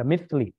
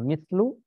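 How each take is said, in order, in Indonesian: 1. Kata ini berakhir dengan vokal i. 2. Kata ini berakhir dengan vokal u. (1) "jangan dibaca mithli" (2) "Jangan dibaca mithlu"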